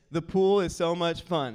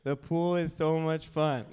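First: Put-on loud, upbeat model line for a toddler; feed the line for a child to repeat; dad's emphatic prompting voice; coaching a child. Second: Imitating a child's dutiful repeat; lightly voiced reluctant little pupil; toddler parroting. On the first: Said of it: "Repeat after me, Beckham. Say this". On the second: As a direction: parrot it back like a coached toddler. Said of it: "Repeat after me, Beckham".

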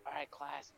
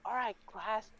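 First: Subdued mock-teacher voice; deflated teacher. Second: High, gleeful call to the class; upbeat mock-teacher voice; delighted teacher. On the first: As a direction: start the lesson with no enthusiasm. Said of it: "she would be like". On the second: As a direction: address the class in high good cheer. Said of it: "she would just be like".

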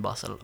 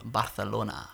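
First: Said in the usual way. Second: Barcelona with a lisped "th" for the c; Spanish pronunciation. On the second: Shown as a demonstration. Host correcting themselves to Spanish, Barcelona with "th". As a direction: say Barcelona the Castilian way, "Bar-tha-lona".

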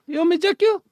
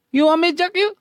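First: Maid voice. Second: Very high put-on maid voice. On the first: Acted. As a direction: repeat the cheeky maid line. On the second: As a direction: tease like a cheeky maid.

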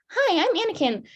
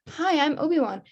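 First: Put-on high-pitched little-kid voice; Anakin Skywalker impression. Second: Slightly raised, light voice for Obi-Wan; mock greeting, a touch higher; Obi-Wan introducing himself. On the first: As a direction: put on a high, childlike greeting. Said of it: "a perfect Anakin Skywalker impression". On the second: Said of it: "he's like".

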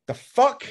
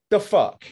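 First: Sharp high outraged yelp, louder; high-pitched indignant cry. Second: Louder, higher indignant repeat falling at the end; loud disgusted second take; outraged. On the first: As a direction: fling it out in disbelief. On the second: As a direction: repeat the outrage, firmer and dropping. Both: Real, not acted. Outraged at streamer's response.

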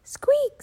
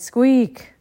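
First: Squeak, in a very high tiny mouse voice. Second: Squeak. whispered flat and reluctant; a sulky little whisper of Squeak; grudging whispered squeak. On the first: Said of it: "said Annie". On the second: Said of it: "Jack groaned". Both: Acted.

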